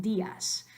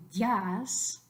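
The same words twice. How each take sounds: First: Días in two syllables, DÍ-as, stress on í; correct días. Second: Días squeezed into one syllable, dyas; wrong diphthong. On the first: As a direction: split días: DÍ-as. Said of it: "we want días". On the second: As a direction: glide días into a single beat. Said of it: "we don't wanna say días". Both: Shown as a demonstration.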